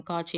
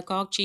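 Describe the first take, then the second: First: காட்சி said "kaatchi", with no k sound; Tamil form. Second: காட்சி said with a k before the ch, "kaakchi"; foreign-word form. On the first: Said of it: "நம்ம காட்சி அப்படின்னு எழுதுறோம்". (காட்சி என்பதை ட் ஒலியுடன்) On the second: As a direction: sound a hard k inside காட்சி: "kaak-chi". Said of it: "இது வந்து பிறமொழி சொல்". (காட்சி என்பதை "காக்சி" என க் ஒலியுடன்) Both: Shown as a demonstration.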